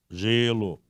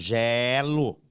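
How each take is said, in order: First: The stressed vowel is closed. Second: The stressed vowel is open. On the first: It is the noun meaning 'ice'. "o timbre é fechado" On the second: It is the verb meaning 'I freeze'. "o timbre é aberto"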